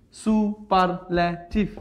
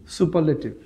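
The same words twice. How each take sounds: First: superlative slowly in four separate beats; syllable by syllable. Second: Said in the usual way. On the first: Shown as a demonstration. Teacher counting many syllables, slowly broken up. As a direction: separate সু, পার, লে, টিভ in superlative. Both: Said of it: "poly".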